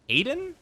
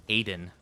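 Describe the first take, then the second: First: "Aiden?" jumps high with a rising end; questioning tune. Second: "Aiden." said low, soft, with a falling end; settled tune. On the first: Streamer testing pronunciations, asking it rising. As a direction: ask "Aiden?" as a doubtful question. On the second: Streamer testing pronunciations, stating it with a fall. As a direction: close "Aiden." down as a plain statement. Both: Shown as a demonstration. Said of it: "It's Adon or Adon".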